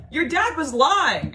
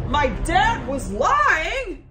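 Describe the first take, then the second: First: High, loud, drawn-out statement; emphatic revelation. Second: High, loud, very slow echo; shocked disbelief. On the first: Friend telling her dad lied, high emphatic statement. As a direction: imitate a friend stating it slowly and forcefully. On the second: Daughter learning dad lied, high incredulous echo. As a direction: act out stunned disbelief, stretching it right out. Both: Retold or imitated.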